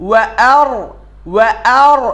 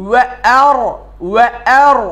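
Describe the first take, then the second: The two takes are said the same way.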